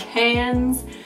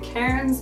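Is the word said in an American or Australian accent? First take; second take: Australian; American. First: It is said in an Australian accent. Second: It is said in an American accent. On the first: "the Australians prefer us to say it in an Australian accent, so I could call it cans" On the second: "in an American accent. I'd say cairns"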